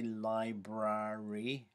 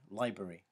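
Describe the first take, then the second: First: Both r syllables are pronounced in full. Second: One of the repeated r syllables is dropped. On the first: The speaker calls it wrong. "We don't say library" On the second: The speaker calls it right. "we tend to say library"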